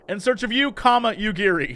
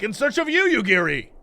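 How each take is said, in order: First: It is delivered in a calm, toned-down way. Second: It is delivered in an over-the-top, intense way.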